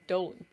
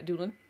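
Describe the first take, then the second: First: The first vowel sounds like 'oh'. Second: The first vowel sounds like 'oo'. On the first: The speaker calls it right. "whose name I've apparently been pronouncing wrong" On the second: The speaker calls it wrong. "What have you been saying?"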